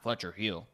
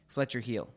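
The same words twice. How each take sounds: First: The command sounds exaggerated, like a cartoon. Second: The command sounds neutral, like plain everyday speech. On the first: The speaker calls it wrong. "It's not Fletcher, heel or Fletcher, heel, right? That's a cartoon character" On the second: The speaker calls it right. "It's like Fletcher, heel. So it's very neutral"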